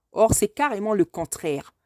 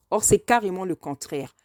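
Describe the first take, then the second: No difference in how they are said.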